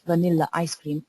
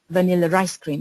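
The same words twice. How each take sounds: First: No R sound links vanilla and ice. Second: An R sound links vanilla and ice.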